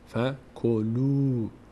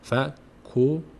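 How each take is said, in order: First: The final vowel is drawn out long. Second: The final vowel is short and clipped. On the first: The speaker calls it right. "یک کمی میکشیم" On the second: The speaker calls it wrong. "این نمیشه فکلو"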